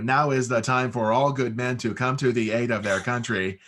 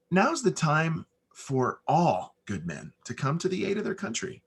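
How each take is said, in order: First: Reading it out like a formal recital, a bit louder; the wrong way, read aloud and wooden; stiff reedy read. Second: Just say it to the person next to you; the right way, natural and unread; conversational. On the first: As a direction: announce it line by line like reading from a page. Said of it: "is not the, how you get cast". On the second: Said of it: "normally how you and I would talk every single day". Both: Shown as a demonstration.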